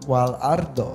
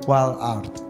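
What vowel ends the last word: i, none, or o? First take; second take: o; none. First: The word ends with an o vowel. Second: The word ends on a consonant, no vowel. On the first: "Bukan wal ardo" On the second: "Walaupun dibacanya wal ard"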